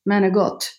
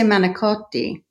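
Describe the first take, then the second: First: It is said the Sicilian way. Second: It is said in standard Italian.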